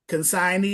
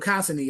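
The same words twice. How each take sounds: First: It is said in a standard accent. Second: It is said in a Southern country accent. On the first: "pronounce it proper" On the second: "you can go Bama"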